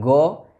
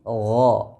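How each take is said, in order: First: The first consonant is a hard stop. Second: The first consonant is a flowing fricative. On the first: The speaker calls it wrong. "Bukan go" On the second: The speaker calls it right. "tapi gho. Ada aliran suaranya"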